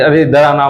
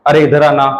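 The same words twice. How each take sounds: First: Casual Bagri call, mildly voiced; calling someone over in Bagri. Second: Said in the usual way. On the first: (Bagri में हल्के से पुकारना) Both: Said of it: "मैं sorry Bagri बोल गया".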